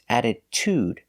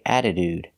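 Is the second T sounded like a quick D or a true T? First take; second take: true T; quick D. First: The second T sounds like a true T. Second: The second T sounds like a quick D. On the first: The speaker calls it right. "the second T is pronounced with a true T sound" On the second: The speaker calls it wrong. "we don't pronounce with a D sound. We don't say attitude"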